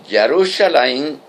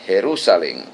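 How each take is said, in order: First: Jerusalén with a Hebrew j and a gliding end; English-style Jerusalem. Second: Jerusalén with a Spanish rasped j, ending -én; Jerusalén said the plain Spanish way, xe-ru-sa-LÉN. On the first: Preacher showing the Hebrew name Jerusalén. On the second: Preacher giving the Spanish form, Jerusalén. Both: Shown as a demonstration. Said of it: "en español se dice".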